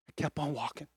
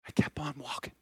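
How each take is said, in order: First: Quiet, hushed repeat; soft. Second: Hushed whisper, almost breath. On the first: Quietly repeating it to the church. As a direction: say it softly, letting it sink in. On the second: Whispering it back to the church. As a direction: let it fall to a whisper for the congregation. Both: Acted. Pastor repeats the line for effect.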